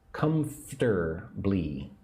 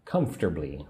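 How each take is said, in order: First: "Comfortably" slowly split as cum-fter-blee; three syllables, slowly. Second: Said in the usual way. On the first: Shown as a demonstration. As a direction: draw out "Comfortably" in three separated beats. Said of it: "I say it with three syllables".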